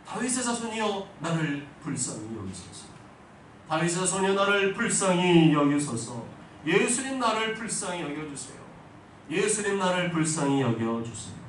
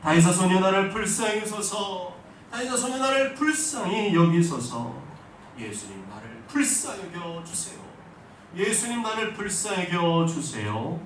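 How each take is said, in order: First: Loud, high desperate cry for mercy. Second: A much louder, higher shout for mercy; full-voiced desperate shout, the last plea slowed; louder cry. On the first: Acted. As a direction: call out to Jesus across the crowd. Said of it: "예수님 향해 외쳤어요". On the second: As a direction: cry out even harder over the scolding crowd. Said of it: "더 큰 소리로 부르짖었습니다".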